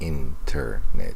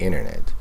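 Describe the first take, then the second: First: The T after the N is clearly pronounced. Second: The T after the N is dropped entirely. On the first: "He doesn't say internet" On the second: "It's kind of like this T is not pronounced"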